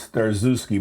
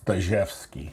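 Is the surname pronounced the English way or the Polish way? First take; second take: English; Polish. First: The surname is said with an English pronunciation. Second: The surname is said with a Polish pronunciation. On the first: This is the name most people use. "everybody knows me as" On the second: This is how Polish speakers say the name. "if you're Polish"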